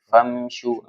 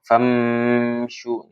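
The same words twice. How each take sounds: First: The m sound is clipped with no nasal tail. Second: The m sound hums on with a nasal tail. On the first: The speaker calls it right. "Tapi famshu langsung" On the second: The speaker calls it wrong. "tidak ya"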